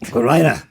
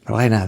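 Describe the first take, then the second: First: The name is said harshly, like a sharp order. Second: The name is said gently and softly. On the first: "That sounds like, get in here" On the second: "that sounds soft"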